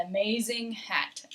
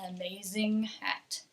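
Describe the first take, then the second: First: The final g of amazing is clearly pronounced. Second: The same.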